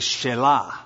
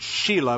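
First: It is said with a Hebrew-style emphasis. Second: It sounds like the English name Sheila. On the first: The speaker calls it right. "I'll use the Hebraic emphasis and say Shelah" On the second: The speaker calls it wrong. "You could pronounce it Sheila"

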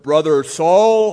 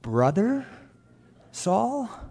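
First: The greeting sounds bold and confident. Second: The greeting sounds hesitant and doubtful. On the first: The greeter fully accepts him as a brother. "perhaps it wasn't bold" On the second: The greeter doubts he is really a brother. "are you sure you're a brother?"

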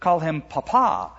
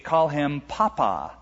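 First: The stress is on the last syllable. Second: The stress is on the first syllable.

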